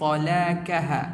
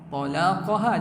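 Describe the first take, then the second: First: The middle consonant is a plain front k. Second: The middle consonant is a deep throat q. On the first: The speaker calls it wrong. "talakaha bil kaf" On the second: The speaker calls it right. "sepatutnya talaqa"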